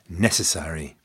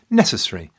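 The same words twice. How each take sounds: First: All syllables are pronounced. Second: One syllable is left out.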